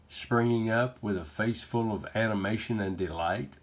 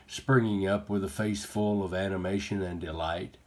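Both takes have the same delivery.

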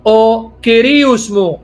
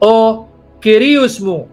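First: It uses the modern native Greek pronunciation. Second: It uses the modern native Greek pronunciation.

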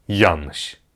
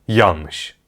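No difference in how they are said.

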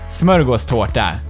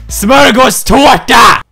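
First: It is said calmly at normal loudness. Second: It is said louder and aggressively.

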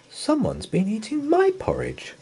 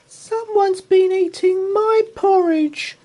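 First: It is said in Mother Bear's plain voice. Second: It is squeaked in Baby Bear's voice.

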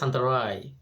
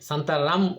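First: The word ends in a nasal 'ai' vowel. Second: The word ends with a clear m sound. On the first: The speaker calls it right. "But উচ্চারণ হবে সান্তারাই" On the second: The speaker calls it wrong. "সান্তারাম উচ্চারণ লেখা ইংরেজিতে পড়লে"

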